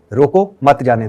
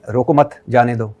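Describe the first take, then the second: First: "रोको", pause, then "मत जाने दो"; pause after रोको. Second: "रोको मत", pause, then "जाने दो"; group "रोको मत" together, stress मत, break before "जाने दो"; pause after मत. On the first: Interviewer giving the scholar the opposite reading, pause after रोको. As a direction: stress रोको, break, then run "मत जाने दो" together. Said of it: "एक है". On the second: Interviewer showing the scholar how a pause changes meaning, pause after मत. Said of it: "वो एक है ना". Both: Shown as a demonstration.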